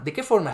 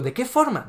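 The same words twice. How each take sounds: First: Said in the usual way. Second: Much higher, pressing repeat; heated challenge to Rayo; insistent question. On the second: Real, not acted. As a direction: demand an answer, pitch jumps up. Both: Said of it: "lo vuelvo a preguntar".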